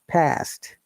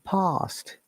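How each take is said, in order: First: The word is said with an American accent. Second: The word is said with a British accent. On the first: "Americans say S sound, like they'll say past" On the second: "in British English, we say R sound ... we'll say past"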